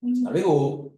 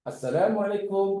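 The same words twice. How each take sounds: First: Curt, unpleasant Assalamualaikum, a bit louder; hurtful intonation. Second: A kind, friendly salam; pleasant greeting. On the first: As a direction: say Assalamualaikum so it stings. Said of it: "Tapi intonasinya tak sedap, menyakiti". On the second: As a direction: say Assalamualaikum nicely, with good intonation. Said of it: "bagus ucapannya, menyenangkan". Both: Shown as a demonstration.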